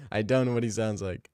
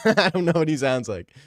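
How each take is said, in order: First: Said in the usual way. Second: Laughing through the words, a bit louder; cracking up at himself; giggling admission. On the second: Real, not acted. Laughs at his own impression.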